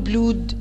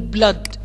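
First: The vowel sounds like a long oo. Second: The vowel sounds like a short uh. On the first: The speaker calls it wrong. "ولا بقول بلود؟" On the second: The speaker calls it right. "لا بقول بلد"

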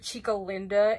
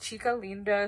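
First: It is pronounced with anglicized English sounds. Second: It is pronounced with Spanish sounds. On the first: The speaker calls it wrong. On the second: The speaker calls it right. "that's not how you say it. It's Chica Linda"

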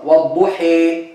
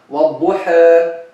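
First: The final vowel leans strongly toward e. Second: The final vowel leans slightly toward e. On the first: "that's called imala kubra" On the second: "that's called taqleel"

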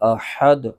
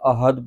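First: The h is a deep, throaty h sound. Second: The h is a plain, light h sound. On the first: The speaker calls it right. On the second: The speaker calls it wrong.

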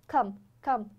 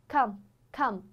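The two takes are said the same way.

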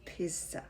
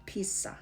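Both takes have the same delivery.

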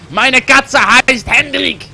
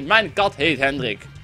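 First: It is said in a mock German accent. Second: It is said in a plain Dutch accent.

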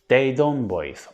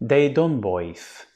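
First: It is pronounced as the spelling suggests. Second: It is pronounced as the spelling suggests.

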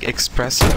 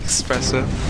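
First: The word begins with an 'ex' sound. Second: The word begins with an 'es' sound.

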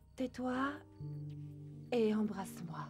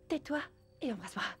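First: It sounds breathy and seductive. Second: It sounds tearful, as if crying.

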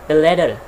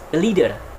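First: The first vowel in 'leader' is short, as in 'lid'. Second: The first vowel in 'leader' is long, as in 'lead'. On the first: The speaker calls it wrong. "We cannot say lit, for example" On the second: The speaker calls it right. "No, the correct one is the leader"

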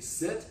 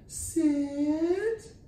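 First: It is said in a normal conversational pitch. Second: It is said in a high-pitched voice.

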